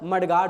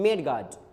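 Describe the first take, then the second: First: The first syllable sounds like 'mud'. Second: The first syllable sounds like 'med'. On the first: The speaker calls it right. "इसका pronunciation मेड guard ना होकर मड guard होता है" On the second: The speaker calls it wrong. "अक्सर लोग कहते हैं मेड guard"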